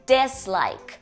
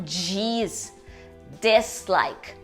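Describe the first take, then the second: First: It begins with a plain d sound. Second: It begins with a dj sound. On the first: The speaker calls it right. "em inglês seria dislike" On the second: The speaker calls it wrong. "e não"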